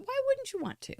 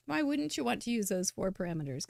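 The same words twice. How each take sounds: First: Excited squeal. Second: Said in the usual way. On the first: Acted. Excited rhetorical question to viewers.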